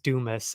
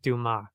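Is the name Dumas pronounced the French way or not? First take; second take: not French; French. First: The name is pronounced without the French sound. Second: The name is pronounced the French way. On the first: The speaker calls it wrong. "as they keep saying" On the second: The speaker calls it right. "If you actually pronounce it French"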